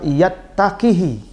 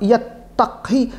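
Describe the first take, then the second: First: The k sound is followed by a short i vowel. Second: The k sound has no vowel after it. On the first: Only one element has been dropped. "harusnya dibaca yattaqihi dengan membuang ya" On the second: Two elements have been dropped, implying lightness. "Bukan mensukunkan kaf"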